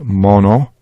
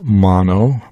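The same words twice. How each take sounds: First: The O vowels are short and weak. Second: The O vowels are long and strong. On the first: The speaker calls it right. "That's the weak O or the short O" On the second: The speaker calls it wrong. "we would not pronounce this part of the phrase as mono"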